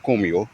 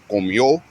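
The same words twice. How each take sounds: First: "comió" wrongly stressed on the co; stress on first syllable. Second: "Comió" with the stress on the final ió. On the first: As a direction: hit CO in "comió", let the ending fall away. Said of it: "so not comió". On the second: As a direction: lift and press the ó ending of "Comió". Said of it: "put the emphasis on the O". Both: Shown as a demonstration.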